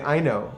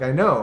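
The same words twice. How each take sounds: First: Said in the usual way. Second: Australian accent. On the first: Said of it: "when people say". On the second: Shown as a demonstration.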